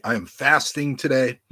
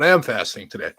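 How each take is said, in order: First: Said in the usual way. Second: "am" stressed to insist it is true. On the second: Real, not acted. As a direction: lean on "am" as a sincere correction. Insists fasting is true after joking.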